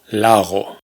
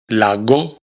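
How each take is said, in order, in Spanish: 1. La g es una fricativa suave. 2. La g es una oclusiva. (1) "sino lago" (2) "Tampoco pronunciamos lago"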